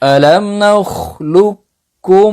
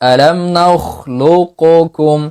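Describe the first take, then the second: First: The first k fully merges into the second. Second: The first k is released with a bounce. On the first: "ইদগাম মুতাকারিবাইন কামিল" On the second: "কাফটা কলকলা হবে।"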